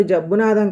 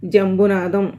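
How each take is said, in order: First: జబ్బునాథం said with plain "బ్బు", no nasal "మ్"; the mangled name జబ్బునాథం, quoted back; wrong name. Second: జంబునాథం. with a clear nasal "మ్" before "బు"; the right name జంబునాథం., carefully said; correct name. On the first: Patient quoting the nurse's wrong version of his name, with జబ్బునాథం. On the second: Patient correcting the nurse, firmly saying జంబునాథం. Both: Shown as a demonstration. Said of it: "నా పేరు జబ్బునాథం కాదండి".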